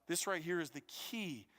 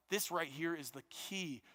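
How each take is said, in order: Both takes have the same delivery.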